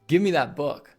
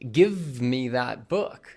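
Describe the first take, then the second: First: Give me is run together as gimme. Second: Give me is said as two full words. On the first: "give me becomes gimme" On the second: "instead of saying"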